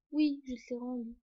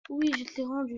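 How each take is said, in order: First: Said in the usual way. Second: Irritated repeat, a bit firmer; insist, losing patience; getting annoyed. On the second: Real, not acted. Repeating to someone off camera, irritated. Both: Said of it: "Je m'énerve, hein".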